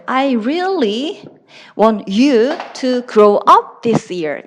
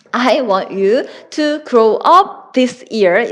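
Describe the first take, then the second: First: "really" drawn out and leaned on; stress on really. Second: Said in the usual way. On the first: Shown as a demonstration. Teacher stretching "really" to show a sincere wish. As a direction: stretch "really" to show she truly means it. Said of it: "살려주시면 돼요". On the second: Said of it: "정말 원하는 거는".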